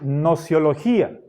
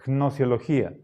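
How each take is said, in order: First: The word begins with an n sound, no g. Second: The word begins with a soft g before n. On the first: It is easier for Spanish speakers to say. "Podríamos decir nociología y nos saltamos la G" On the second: It stays faithful to the word's origin. "para ser fieles a la etimología deberíamos pronunciar gnosiología"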